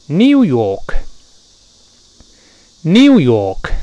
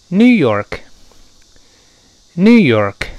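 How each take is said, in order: First: British "New York": nyoo yawk, no r; loud British demo, y glide and no curled r; 英式口音. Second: American "New York": noo york, curled r; loud, higher American demo, no y in new; 美式口音. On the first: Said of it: "英国人读这个词呢是这么读的". (英式读音，new 带耶音，York 不卷舌) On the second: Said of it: "而美国人一读是这么读的". (美式读音，new 无耶音，York 卷舌) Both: Shown as a demonstration.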